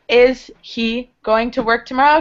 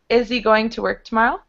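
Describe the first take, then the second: First: The h in 'he' is clearly pronounced. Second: The h in 'he' is dropped and blended.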